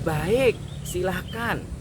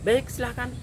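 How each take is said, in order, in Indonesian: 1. Diucapkan dengan nada ramah dan sopan. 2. Diucapkan dengan nada ketus dan tajam.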